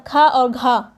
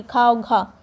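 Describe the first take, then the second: First: Slow, with a strong puff of breath on खा and घा; breathy aspirated demo. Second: Said in the usual way. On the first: Shown as a demonstration. Teacher showing students how aspirated खा and घा take more breath, slow and breathy. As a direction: push extra air out on खा and घा, slowly. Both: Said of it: "इसको बोलने में देखिए ज़्यादा oxygen की ज़रूरत पड़ रही".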